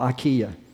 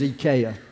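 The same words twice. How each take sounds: First: IKEA is said the usual American way. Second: IKEA is said the way it's said in France. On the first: This is how people say it locally. The speaker calls it wrong. "y'all when this mispronounce it, it's called IKEA over here" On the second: This is how it was said abroad. The speaker calls it right. "but over there it was IKEA"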